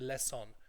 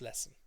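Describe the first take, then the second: First: The second syllable is overpronounced, with a full vowel. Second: The second syllable is reduced and weak. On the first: The speaker calls it wrong. "They overpronounce that" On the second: The speaker calls it right. "It's lesson"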